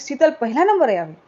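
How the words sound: It is said as an exclamation.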